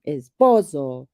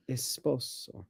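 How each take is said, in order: First: Esposo slow and loud, PO stretched; exaggerated stress. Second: Said in the usual way. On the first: Teasing partner's exaggeration, Esposo with PO overblown. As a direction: overdo PO in Esposo, really draw it out.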